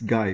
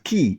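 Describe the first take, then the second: First: The name rhymes with 'eye'. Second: The name has a long 'ee' vowel. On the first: The speaker calls it wrong. "would assume it's Guy" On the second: The speaker calls it right. "but it's pronounced as Key"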